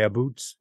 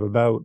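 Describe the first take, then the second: First: The vowel sounds like 'oo', a Canadian accent. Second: The vowel sounds like 'ow', a standard accent.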